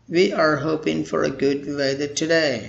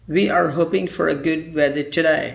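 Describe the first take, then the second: The two takes are said the same way.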